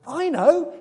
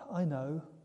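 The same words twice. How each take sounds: First: It sounds excited and inspired. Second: It sounds sympathetic and understanding.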